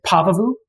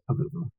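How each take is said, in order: First: Pavuvu stressed on the first syllable, PAH-vuh-voo; front-stressed Pavuvu, opening on an open "pah"; other people's pronunciation. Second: Said in the usual way. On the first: Shown as a demonstration. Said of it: "You will hear some people say". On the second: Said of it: "I just say Pavuvu".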